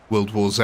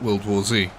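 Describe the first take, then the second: First: The last letter is said as 'zed'. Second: The last letter is said as 'zee'. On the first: "I don't call the film World War Z" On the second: "I do call it"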